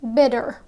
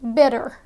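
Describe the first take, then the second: First: The middle consonant sounds like a D. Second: The middle consonant sounds like a D.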